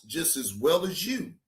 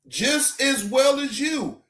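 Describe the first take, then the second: First: Said in the usual way. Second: Higher, punched "Just as well as you"; emphatic repeat. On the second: Real, not acted. Streamer lecturing the arrested woman, emphatic "Just as well as you". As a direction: drive home each word of "Just as well as you", pitched up.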